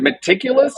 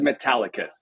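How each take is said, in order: First: The middle syllable sounds like 'tic'. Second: The middle syllable sounds like 'tal'. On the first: The speaker calls it wrong. "I think you're pronouncing that wrong" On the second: The speaker calls it right. "Metallicus is the company"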